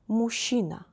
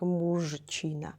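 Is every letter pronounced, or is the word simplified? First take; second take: simplified; every letter. First: The consonant cluster is merged, not every letter sounded. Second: Every letter of the consonant cluster is sounded. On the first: The speaker calls it right. "we read it like this" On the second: The speaker calls it wrong. "we don't need to read every letter, like мужчина"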